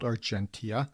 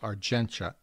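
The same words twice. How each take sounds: First: The name is read just as it is spelled. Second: The name is said differently from its spelling. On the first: "It's spelled Argentia" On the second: "but it's pronounced Argentia"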